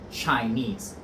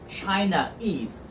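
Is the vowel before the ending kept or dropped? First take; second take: dropped; kept. First: The final vowel is dropped before the ending. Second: The final vowel is kept before the ending. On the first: The speaker calls it right. "take off the A on the end and say Chinese" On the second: The speaker calls it wrong. "Chinese is difficult to pronounce"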